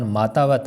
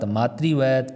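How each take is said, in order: First: मातावत with open "taa"; wrong form. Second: मातृवत with "tri" in the middle; correct form. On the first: Teacher contrasts the faulty word, emphatic. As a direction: say मातावत as "maa-taa-vat". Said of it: "ये गलत हो गया". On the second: Teacher contrasts the right word, carefully pronounced. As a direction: say मातृवत as "maa-tri-vat". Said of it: "ये सब सही है". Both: Shown as a demonstration.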